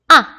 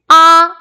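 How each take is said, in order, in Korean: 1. 짧고 가볍게 발음되고, 높낮이 변화가 없어요. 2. 음이 높은 상태로 평평하게 유지돼요. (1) "짧고 가볍게 발음되는 거" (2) "일성"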